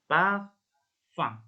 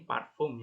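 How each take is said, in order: First: It ends with a nasal vowel, no 'm' sound. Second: It ends with a plain spelled-out 'um' sound. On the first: The speaker calls it right. "Tapi ini cara bacanya parfum" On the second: The speaker calls it wrong. "Kalau kalian masih belum uh, pernah belajar cara pengucapan dalam bahasa Prancis, ini parfum ya"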